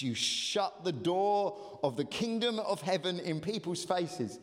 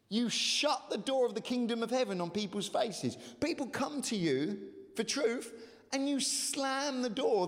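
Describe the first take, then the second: First: Said in the usual way. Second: Raised, impassioned repeat of the verse; emphatic higher retelling. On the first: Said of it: "I've just found that a really poignant image". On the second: Shown as a demonstration. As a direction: build it up, pitch rising. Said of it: "really poignant image".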